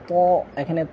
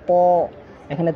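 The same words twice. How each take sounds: Both takes have the same delivery.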